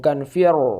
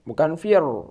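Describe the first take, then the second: No difference in how they are said.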